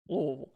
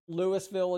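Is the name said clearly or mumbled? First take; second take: mumbled; clearly. First: The name is mumbled with little mouth movement. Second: The name is said clearly with every syllable. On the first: This is how locals say it. The speaker calls it right. "you got to just move your mouth as little as possible" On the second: This is how outsiders say it. The speaker calls it wrong. "Louisville is illegal"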